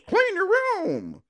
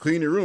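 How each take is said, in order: First: It is said in a weird, silly voice. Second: It is said in a natural, ordinary voice. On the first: A child mockingly repeats the instruction. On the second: A parent gives an instruction.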